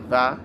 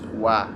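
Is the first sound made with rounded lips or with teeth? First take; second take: teeth; rounded lips. First: It starts with a v sound using teeth. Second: It starts with a w sound using rounded lips. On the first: The speaker calls it wrong. "your lips have to be doing the action, not your teeth. So it's not va" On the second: The speaker calls it right. "it's wa. Your lips have to be touching, or your lips have to be rounding"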